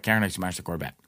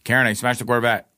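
First: Low, softer admission; retold sheepish confession. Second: Firmer, fuller-voiced confession; retold insistent repeat. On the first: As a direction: confess it quietly to the girlfriend. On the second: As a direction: say it plainly so it gets through. Repeating confession after being dismissed.

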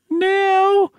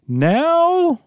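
First: Put-on squeaky little boy asking; a small kid, pitched way up; very high child voice. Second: Put-on high boy asking; young boy's surprised question; high child voice. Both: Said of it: "Let me do a different one for Tommy".

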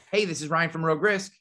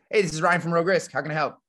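First: Upbeat friendly hello on the phone; friendly phone greeting. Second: Friendly phone greeting. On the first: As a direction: greet a caller brightly. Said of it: "here's how I answer the phone". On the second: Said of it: "the one I use the most is". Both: Shown as a demonstration.

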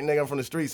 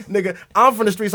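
First: Said in the usual way. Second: "I'm" punched higher and louder; imitating a cocky comeback, "I'm" raised and loud; retold defiant boast. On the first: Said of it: "he was again like". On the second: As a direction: throw it back, leaning hard on "I'm". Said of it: "And Brandon's like".

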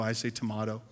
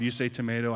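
First: "tomato" with "mah" in the middle; British tomato. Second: "tomato" with "may" in the middle; American tomato. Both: Shown as a demonstration.

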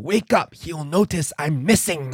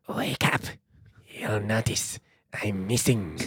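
First: Put-on creepy old man. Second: Put-on hushed, low, creepy Romanian-accented voice. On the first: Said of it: "your best version of that voice". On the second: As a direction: whisper it slowly with a hammy Romanian accent. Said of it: "Mine didn't have an accent. I don't know why yours had an accent".

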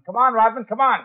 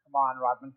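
First: Higher, louder call through the door; impatient call. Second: Said in the usual way. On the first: Acted. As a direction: call him again, sharper and louder. Calling again, no answer.

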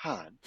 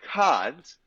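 First: Kant? said low and falling, much softer; Kant? with a low, soft falling tune; flat Kant. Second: Kant? with a big upward question tune; rising Kant. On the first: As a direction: let Kant? drop down quietly. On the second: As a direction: push Kant? up in a comic rising inflection for a laugh. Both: Retold or imitated. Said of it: "If I go up with my inflection on this line".

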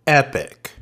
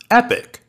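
First: Said in the usual way. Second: Repeated much higher, falling off the top; high delighted echo of the first; excited. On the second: Real, not acted. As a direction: savor it, thrilled by the clip. Host repeats her reaction, much higher.

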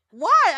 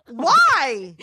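First: Why? pitched much higher and pushed out in disbelief; Why? flung up high, incredulous; exasperated why. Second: Puzzled. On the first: Wife to husband over his homemade bong, Why? much higher in disbelief. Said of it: "I go". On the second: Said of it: "And I go". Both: Retold or imitated.

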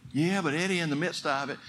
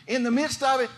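First: Doubting congregant. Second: "in the midst of it" thrown back higher and louder; emphatic answer. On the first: Retold or imitated. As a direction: sound like a discouraged listener pushing back. Congregant objecting to preacher. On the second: Acted. Preacher answering the doubter, forceful and raised. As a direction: hit it back as a rallying cry.

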